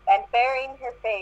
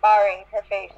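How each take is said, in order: First: Baring said like "bearing"; "baring" with the vowel of "bear"; mispronounced word. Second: Baring said like "barring"; "baring" with the vowel of "bar"; corrected pronunciation. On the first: Reader says "baring" before the friend corrects it. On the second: Reader fixes "baring" after the friend's correction. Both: Real, not acted.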